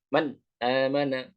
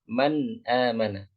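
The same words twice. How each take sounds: First: The vowel after the n starts with a hard jolt. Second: The vowel after the n starts softly and gently. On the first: The speaker calls it wrong. "Contoh dihentak adalah misalkan" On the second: The speaker calls it right. "tapi diucapkan dengan lembut"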